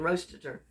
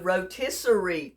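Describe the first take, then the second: First: The word is said with three syllables. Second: The word is said with four syllables. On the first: The speaker calls it wrong. "I've just said it without even thinking" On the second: The speaker calls it right. "It is a rotisserie chicken"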